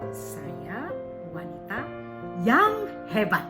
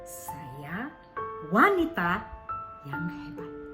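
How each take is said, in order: First: The last word carries the stress. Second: The second word carries the stress. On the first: Great, not just ordinary. "umpama kita berikan intonasi kepada yang hebat" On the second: It is a woman. "Ketika kita tekankan di wanitanya"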